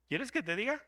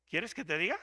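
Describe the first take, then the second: First: Playful knowing tease; teasing challenge. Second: Said in the usual way. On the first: Shown as a demonstration. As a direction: dare them to hear it.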